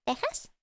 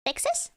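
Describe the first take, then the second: First: "Texas" as a questioning "TEH-has", softer; Spanish pronunciation. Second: "Texas" as a questioning "TEK-sus", rising high; English pronunciation. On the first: Player testing the other version, Spanish pronunciation of "Texas" with an h-sound. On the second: Player testing the English word, English pronunciation of "Texas" with ks. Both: Shown as a demonstration. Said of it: "How do you pronounce it in English?".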